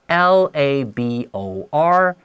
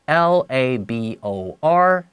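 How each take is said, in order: Both takes have the same delivery.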